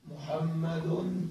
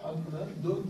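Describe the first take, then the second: First: محمد stretched out very slowly and softly, letter by letter; drawn-out demo word. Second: محمد said softly as "muhammadun" with the final -un sounded clearly; nunation shown. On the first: Teacher to students, demonstrating the word محمد slowly and softly. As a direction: spell out محمد slowly for the class. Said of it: "انظر إلى كلمة محمد". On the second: Teacher shows students the tanween on محمد, soft and clear. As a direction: add the -un ending to محمد. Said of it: "هكذا". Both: Shown as a demonstration.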